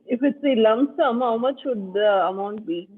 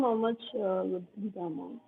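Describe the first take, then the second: First: Speaking up. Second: Fading to almost nothing; trailing off very quietly; barely audible. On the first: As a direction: speak up so they can hear. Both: Real, not acted. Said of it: "Sorry, your voice is very low".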